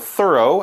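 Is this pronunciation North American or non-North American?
North American. It is said in a North American accent.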